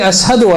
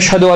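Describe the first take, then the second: First: It is said with an 's' sound. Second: It is said with a 'sh' sound.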